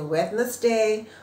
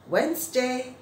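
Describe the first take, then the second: First: The middle d sound is clearly pronounced. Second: The middle d sound is silent, like wenz. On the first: The speaker calls it wrong. "sering teman-teman bacanya Wednesday" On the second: The speaker calls it right. "yang betul adalah Wednesday, kayak W E N Z gitu loh"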